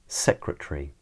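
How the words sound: It is said in a British accent. "the second time I say them, I'll say them in a British accent"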